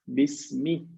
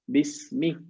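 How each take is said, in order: Both takes have the same delivery.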